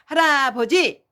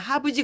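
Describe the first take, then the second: First: The word is said in full, every syllable clear. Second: The word is shortened, dropping a syllable. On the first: This is how parents should say it to the child. The speaker calls it right. "할아버지 이렇게 해야지 돼요" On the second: This is how a baby says it. The speaker calls it wrong. "아기들이 하부지 그런다고"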